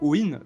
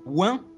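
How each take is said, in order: First: The name ends with a plain 'en' sound. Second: The name ends with a nasal vowel. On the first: "si tu prends Owen" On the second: "c'est un scandale"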